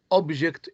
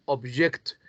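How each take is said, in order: First: "object" as a noun, OB-ject; stress on first syllable. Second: "object" as a verb, ob-JECT; stress on second syllable. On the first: Teacher contrasting noun with verb, first-syllable stress on "object". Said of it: "object is a noun". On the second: Teacher contrasting verb with noun, second-syllable stress on "object". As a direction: hit the last syllable of "object". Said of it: "object is a verb". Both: Shown as a demonstration.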